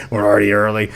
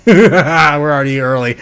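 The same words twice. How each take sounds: First: A lower, settled second take; lower echo. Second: Said in the usual way. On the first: Shown as a demonstration. Streamer marvels at the Bitcoin chart, then echoes lower. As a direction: repeat it lower, like an aside. Streamer repeats line to chat.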